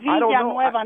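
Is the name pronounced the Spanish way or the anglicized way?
Spanish. The name is pronounced the Spanish way. The speaker calls it right. "You don't even say your last name right"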